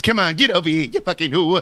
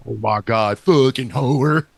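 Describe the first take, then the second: First: Lightly imitated TV mobster; a hint of a Sopranos tough guy; Ralph Cifaretto. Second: Slow, drawn-out country voice; deep country accent. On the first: Guessing how the neighbor sounded, light mobster impression. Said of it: "Was it like Ralph Cifaretto from The Sopranos?". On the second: Acted. Friend trying out the deep country neighbor, slow country accent. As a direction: stretch it in a lightly imitated country drawl. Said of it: "deep country".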